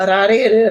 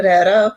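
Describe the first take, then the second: First: Rare said with a flicked r, ra-re, falling; Japanese tapped r. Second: Rare again with a flicked tapped r, ending on a rise; Japanese tapped r. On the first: Speaker showing a friend the Japanese r in rare. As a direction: demo of rare as ɾaɾe with a tapped r. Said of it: "rewrites, which most Americans don't get". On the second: Repeating the Japanese r sound for the interviewer. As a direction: rare as ɾaɾo, the tongue tapping each r. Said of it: "most Americans can't get the rare". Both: Shown as a demonstration.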